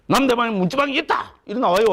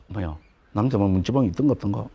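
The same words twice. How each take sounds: First: High-pitched, cocksure declaration; stubborn Gyeongsang know-it-all. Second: Low, quick, unsure musing; genteel Seoul person. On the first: Lecturer mimics an ignorant Gyeongsang man insisting, high and cocksure. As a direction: insist on it like a bullheaded southerner. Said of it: "경상도 사람들은 뭡니까? 좀 무식하죠". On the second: Lecturer mimics a genteel Seoul person wondering, low and hesitant. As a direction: wonder it aloud with mild, reserved doubt. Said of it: "점잖은 사람이". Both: Acted.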